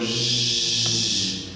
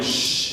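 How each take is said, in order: First: The hiss is made with voice buzzing. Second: The hiss is made without voice. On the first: "you add voice" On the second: "when you were going sh"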